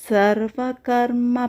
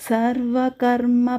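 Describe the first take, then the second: The two takes are said the same way.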